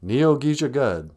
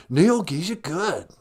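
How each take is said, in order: First: Said in the usual way. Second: Higher, drawn-out repeat; lightly voiced dude trying out a word; dude echo. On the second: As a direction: echo it slowly with a big lilt. Dude echoes the new word.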